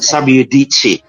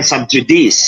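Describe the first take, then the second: First: The j sounds like a y. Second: The j sounds like English j. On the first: The speaker calls it right. "It's subjudice. Because J is Y in Latin" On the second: The speaker calls it wrong. "Kung Latin ha, hindi yan subjudice"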